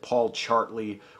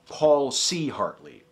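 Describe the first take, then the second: First: The C runs into the name as one word. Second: The C is said as a separate letter. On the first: The speaker calls it wrong. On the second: The speaker calls it right.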